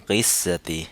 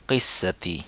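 The two takes are said the same way.

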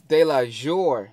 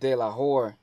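First: The J is said like an English J. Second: The J is said like an English H. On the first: The speaker calls it right. "so it's J Hus Delajore" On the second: The speaker calls it wrong. "not [name]. It's pronounced like an H"

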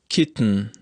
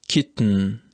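No difference in how they are said.

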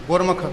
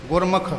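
Both takes have the same delivery.

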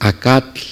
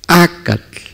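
First: The stress is on the last syllable. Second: The stress is on the first syllable. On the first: The speaker calls it wrong. "No es acatl. Cualquiera de que no sabríamos el idioma diríamos acatl" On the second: The speaker calls it right. "Es acatl"

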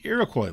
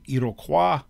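First: The word is pronounced the American way. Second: The word is pronounced the French way. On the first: "so I go with the Americanized pronunciation" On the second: "technically, the French pronunciation would be Iroquois"

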